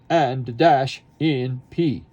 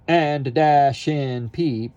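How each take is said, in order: First: The words are separated by sharp glottal stops. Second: The words run together smoothly without breaks. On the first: The speaker calls it right. "we want ... So very separate, very marcato" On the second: The speaker calls it wrong. "We don't want"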